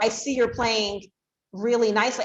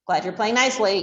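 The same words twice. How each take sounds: First: Lifted, eager praise for playing nicely; excited praise. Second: Said in the usual way. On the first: Shown as a demonstration. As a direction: radiate excitement while praising. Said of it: "a tone of voice that radiates excitement". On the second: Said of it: "not just like".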